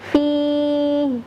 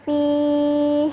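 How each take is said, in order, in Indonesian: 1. Bunyi h-nya lebih berat, dari pangkal tenggorokan. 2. Bunyi h-nya ringan, dari tengah tenggorokan. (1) "sedikit lebih berat dari huruf H" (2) "bunyi H dari tengah tenggorokan"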